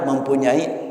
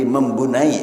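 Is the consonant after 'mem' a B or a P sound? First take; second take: P; B. First: It is said with a clear P sound. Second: The P is replaced by a B sound. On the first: The speaker calls it right. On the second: The speaker calls it wrong.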